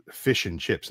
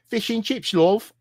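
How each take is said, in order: First: Said in the usual way. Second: High-pitched put-on English accent; hammed-up British "love", pitched way up; mock English accent. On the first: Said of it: "I wouldn't say it that way". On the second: Imagining ordering food in England, pretentious mock English accent. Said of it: "I would go to England".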